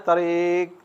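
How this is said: It is said softly and gently.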